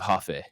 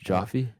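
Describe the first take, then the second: First: The name begins with an h sound. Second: The name begins with a j sound. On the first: "I'm gonna go Hoffe" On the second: "instead of Jaffe"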